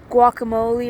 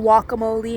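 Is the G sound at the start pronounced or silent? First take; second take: pronounced; silent. First: The G sound at the start is pronounced. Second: The G sound at the start is left out. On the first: "Pronounce the G" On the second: "don't pronounce the G"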